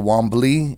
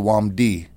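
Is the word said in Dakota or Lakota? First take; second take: Lakota; Dakota. First: It is said in the Lakota form. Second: It is said in the Dakota form.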